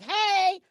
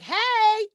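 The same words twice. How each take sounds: First: Much higher, loud greeting; bubbly signature hey; my own high hey. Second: Much higher, loud hey; a big high greeting; bubbly high loud hey; high bright hey. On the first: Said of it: "but I sound like". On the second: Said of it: "they don't expect her to sound like". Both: Shown as a demonstration.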